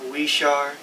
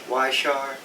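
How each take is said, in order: Both takes have the same delivery.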